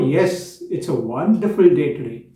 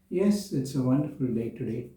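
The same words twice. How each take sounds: First: It is said with lively, full enthusiasm. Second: It is said in a low, uninterested voice. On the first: The speaker is glad and engaged. "said with full enthusiasm" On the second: The speaker does not care at all. "in a low voice, as if I was not interested at all"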